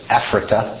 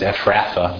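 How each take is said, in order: First: The consonant after 'r' is a hard t sound. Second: The consonant after 'r' is a soft th sound. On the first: This is the original Hebrew pronunciation. "but Ephrata" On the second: This is the later English pronunciation. "people started pronouncing the TH as th instead of the hard T. So that's how it becomes Ephratha"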